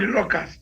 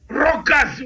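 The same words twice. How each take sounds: First: It is said with a standard pronunciation. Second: It is said with a mocked regional pronunciation. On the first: The speaker calls it right. "No, it's called locust" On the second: The speaker calls it wrong. "He said locust"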